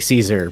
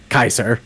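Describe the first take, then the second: First: The name is said the common English way. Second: The name is said the classical Latin way. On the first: This is the usual everyday way of saying it. "normally people just say Caesar" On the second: It signals a strong admiration for Rome. "how it would properly be pronounced in Latin"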